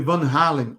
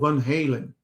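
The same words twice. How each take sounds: First: The name is said without an American pronunciation. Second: The name is said with an American pronunciation.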